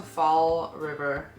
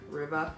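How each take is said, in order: First: Said in the usual way. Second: River in a Boston accent, dropped r as Rivah; Boston accent, no final r on River. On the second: Shown as a demonstration. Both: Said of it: "That's all with the Boston accent".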